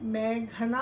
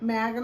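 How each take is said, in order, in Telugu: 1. మధ్య హల్లు ఊపిరితో ఉచ్చరించబడుతుంది. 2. మధ్య హల్లు సాధారణం, ఊపిరి లేకుండా. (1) "పిలుద్దాం" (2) "పిలవకండి"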